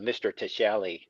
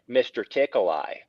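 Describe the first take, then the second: First: The name has a soft sh sound in the middle. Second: The name sounds like the words tickle eye. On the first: This is the name's real pronunciation. The speaker calls it right. "his real name was" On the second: This is how others mispronounced the name. The speaker calls it wrong. "they called him mister Tickle Eye"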